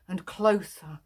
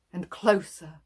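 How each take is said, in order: Both takes have the same delivery.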